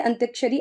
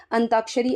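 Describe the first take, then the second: First: अंत्याक्षरी with the य sound, ant-yaa-ksha-ri; wrong form shown. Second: अंताक्षरी without the य, an-taa-ksha-ri; correct form shown. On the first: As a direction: says अंत्याक्षरी as the misspelt version. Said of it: "ऐसे नहीं लिखा जाता है". (गलत रूप अंत्याक्षरी, य के साथ) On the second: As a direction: says अंताक्षरी as the right version. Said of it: "ऐसे लिखा जाता है". (सही रूप अंताक्षरी, बिना य के) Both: Shown as a demonstration.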